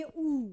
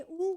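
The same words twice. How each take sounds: First: ऊ drawn out long and falling. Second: ऊ said short and quick, with a rise; a clipped ऊ rising at the end. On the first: Teacher shows the long vowel to students, drawn out slowly. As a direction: stretch the ऊ slowly, let it fall. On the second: Teacher shows the short vowel to students, quick and rising. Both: Shown as a demonstration. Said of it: "मात्रा पे जोर पड़ेगा".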